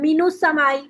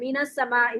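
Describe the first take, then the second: First: The n is followed by a u vowel. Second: The n is followed by an a vowel. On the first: The speaker calls it wrong. "कभी भी इस पे ऐसे नहीं पढ़ेंगे आप" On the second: The speaker calls it right. "इसको जबर दे के पढ़ते हैं"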